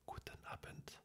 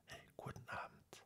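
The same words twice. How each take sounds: First: Guten Abend with every sound, Guten and Abend full; school version. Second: Guten Abend clipped to Gudn Abmd; everyday German. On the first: Contrasting the school Guten Abend. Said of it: "la version scolaire". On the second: Contrasting the everyday spoken Guten Abend. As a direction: swallow the E and N in Guten. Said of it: "On enlève le E de Guten et le N". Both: Shown as a demonstration.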